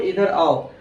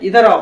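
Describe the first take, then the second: First: It is said in a calm, normal voice. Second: It is said in a firm, stern voice.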